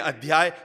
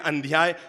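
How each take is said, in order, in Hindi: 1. 'dh' से पहले कोई नासिक ध्वनि नहीं है। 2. 'dh' से पहले एक नासिक ध्वनि आती है। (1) "हम बोले अध्याय" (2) "अंध्याय बोलने से हम अंधे होने की संभावना है"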